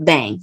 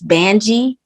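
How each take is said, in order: First: The name ends with a plain 'ng' sound. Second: The name ends with a 'jee' sound. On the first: The speaker calls it wrong. "not Bang" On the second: The speaker calls it right. "So really, it's Banji"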